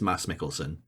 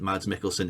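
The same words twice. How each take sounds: First: The name is said with Scandinavian pronunciation. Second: The name is said with English pronunciation. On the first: The speaker calls it right. "it's Mads Mikkelsen" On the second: The speaker calls it wrong. "isn't Mads Mikkelsen"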